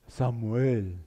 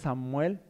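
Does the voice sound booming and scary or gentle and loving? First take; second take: booming; gentle. First: It sounds booming and scary, like a movie. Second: It sounds gentle and loving, like a father.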